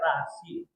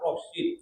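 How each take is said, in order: First: The first vowel sounds like a. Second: The first vowel sounds like o. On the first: This is the person's own name. "Sementara saya Rashid" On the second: This is the divine name. "Kalau Asmaul Husna kan Rashid"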